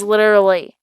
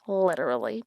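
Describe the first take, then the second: First: "Literally" said louder with a falling tune; "Literally" as a firm, punchy statement; emphatic literally. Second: "literally" much softer with a light rise; "literally" as a quiet, rising afterthought; fading literally. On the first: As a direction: stamp down on "Literally". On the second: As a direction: let "literally" trail off into a murmur. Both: Shown as a demonstration. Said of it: "literally repeated".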